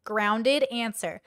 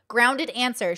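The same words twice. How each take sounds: First: Slow, weighty "Grounded answer"; slow emphatic. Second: Said in the usual way. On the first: Shown as a demonstration. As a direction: lean on "grounded", drawn out.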